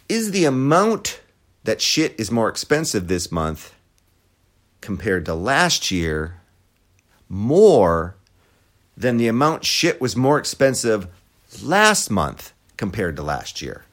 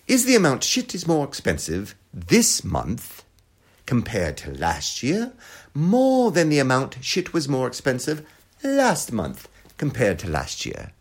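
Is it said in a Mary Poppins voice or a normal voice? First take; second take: normal voice; Mary Poppins. First: It is said in the speaker's normal voice. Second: It is said in a Mary Poppins voice.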